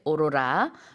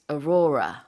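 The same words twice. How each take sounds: First: It is said with Korean pronunciation. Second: It is said with English pronunciation. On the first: "in Korean we say aurora" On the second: "in English it's aurora"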